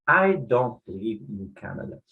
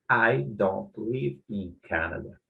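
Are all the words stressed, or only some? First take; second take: all words; all words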